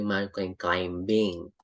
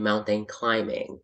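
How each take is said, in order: First: The b in climbing is pronounced. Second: The b in climbing is silent. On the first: The speaker calls it wrong. "Hindi mo sinasabing" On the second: The speaker calls it right. "So you say"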